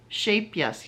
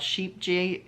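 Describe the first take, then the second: First: The j is sounded like an English y. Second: The j is sounded like an English g. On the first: The speaker calls it right. "she told me it's pronounced Shape Yes because the J's are pronounced like Y's" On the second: The speaker calls it wrong. "which some people pronounce sheep G"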